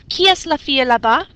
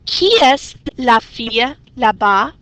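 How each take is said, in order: First: It is said fast. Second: It is said slowly.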